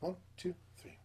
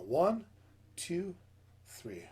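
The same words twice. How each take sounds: First: It is counted quickly. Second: It is counted slowly.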